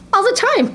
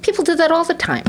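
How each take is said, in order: First: Higher, laughing through it; amused emphasis on "All the time"; laughing repeat. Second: Said in the usual way. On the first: Real, not acted.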